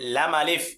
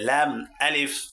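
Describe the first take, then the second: First: The two names are run together without a break. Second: The two names are said separately with a break. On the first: The speaker calls it wrong. "এভাবে বলে কিন্তু হবে না" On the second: The speaker calls it right. "আলাদা আলাদা ভেঙে ভেঙে পড়তে হবে"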